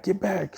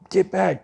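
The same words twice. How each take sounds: First: Much higher warning, dropping in level; pleading second get back; alarmed shout. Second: Much higher, louder warning cry; frantic yell of get back; alarmed shout. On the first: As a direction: repeat the warning, falling away. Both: Acted. Bystanders warn kid off.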